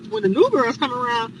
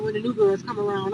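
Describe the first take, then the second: First: NEW thrown back louder, as a question; incredulous echo. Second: Said in the usual way. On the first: Retold or imitated. Visitor echoing the other girl's words, incredulous. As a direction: repeat it in disbelief, leaning on "new". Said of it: "I'm like". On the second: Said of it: "And she's like".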